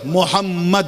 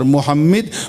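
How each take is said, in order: First: The vowel after the doubled m is 'a'. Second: The vowel after the doubled m is 'i'. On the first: The one who is greatly praised. "मीम पे जबर" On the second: The one who praises greatly. "बहुत तारीफ करने वाला"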